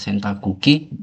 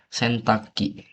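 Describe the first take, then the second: First: The word is said in full, four syllables. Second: The word is shortened, dropping a syllable. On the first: This is the written, textbook form. "Ini juga sentakuki" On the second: This is how people say it in daily speech. "Kalau pelafalan"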